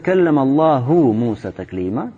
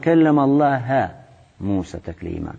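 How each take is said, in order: First: The word Allah ends with a u vowel. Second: The word Allah ends with an a vowel. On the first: God spoke to Moses. The speaker calls it right. "то есть Аллах говорил с Мусой" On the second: Moses spoke to God. The speaker calls it wrong. "они читали как"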